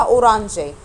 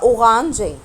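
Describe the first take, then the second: First: "أورانجي" with a tongue-tip r; tapped R. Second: "أوغانجي" with r as a throaty gh. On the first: Teacher showing the word if R is said "er", tapped R. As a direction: say "أورانجي" with the r as in Arabic ra. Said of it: "لو نطقت حرف الآر إر". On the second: Teacher showing the word if R is said "egh", throaty R. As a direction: say "أوغانجي" with the r like Arabic ghayn. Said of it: "طب لو إغ تبقى أوغانجي". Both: Shown as a demonstration.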